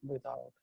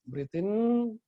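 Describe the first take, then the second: First: Released breath-out cue; soft exhale cue. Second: Said in the usual way. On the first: Shown as a demonstration. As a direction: Breathe out said lower and much softer, fading away. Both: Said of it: "breathing cue".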